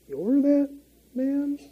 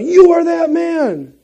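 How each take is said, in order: First: It is said meekly and questioningly. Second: It is yelled out angrily.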